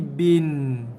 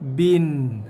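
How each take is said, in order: First: The final n carries a slight nasal hum. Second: The final n carries a slight nasal hum.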